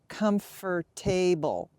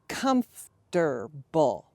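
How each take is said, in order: First: The word is said with four syllables. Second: The word is said with three syllables. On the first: The speaker calls it wrong. "I often hear comfortable" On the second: The speaker calls it right. "you want to make it into three"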